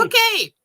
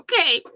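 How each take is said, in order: First: Much higher, louder cry of okay; overwhelmed okay. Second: Higher, louder startled okay; first dawning okay; surprised okay. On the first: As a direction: it fully lands now. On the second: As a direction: let it jump out of you. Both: Retold or imitated. Reacting to the yellow confirmation.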